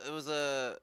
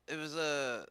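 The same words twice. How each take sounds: The two takes are said the same way.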